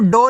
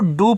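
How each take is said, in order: First: The word ends with an 'oh' vowel. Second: The word ends with an 'oo' vowel. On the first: The speaker calls it wrong. "D O को डो नहीं पढ़ना है" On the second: The speaker calls it right. "इसको आपको डू पढ़ना है"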